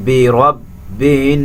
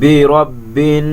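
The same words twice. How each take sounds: First: বি রব্বিন with nasal hum on the nun; slow রব্বিন, nun held through the nose; ghunna on nun. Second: বি রব্বিন slow with a humming nun; রব্বিন, nasal hum held; ghunna on nun. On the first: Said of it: "এই নুনকে গুণনা করতে হবে". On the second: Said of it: "গুণনা করতে হবে". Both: Shown as a demonstration.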